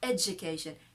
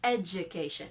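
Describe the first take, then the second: First: The middle consonant is a j sound. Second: The same.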